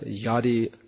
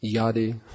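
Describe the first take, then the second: First: The word begins with a Y sound. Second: The same.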